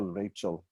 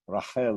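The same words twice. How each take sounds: First: Said in the usual way. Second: Rachel said as ra-KHEL, throaty ch; Hebrew pronunciation. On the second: Shown as a demonstration. Teacher naming the daughter-in-law, Hebrew ra-KHEL for Rachel. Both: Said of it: "usually people are Rachel in Hebrew".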